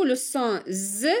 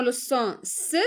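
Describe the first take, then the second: First: "z" said as a buzzing, voiced consonant; voiced z sound. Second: "s" said as a hissed, unvoiced consonant; voiceless s sound. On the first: Teacher gives the other target sound, voiced "z". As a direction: say "z" as the bare buzz, not the letter name. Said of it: "S se prononce z". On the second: Teacher sets out the riddle task, voiceless "s" sound. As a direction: say "s" as the bare hiss, not the letter name. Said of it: "S se prononce s". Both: Shown as a demonstration.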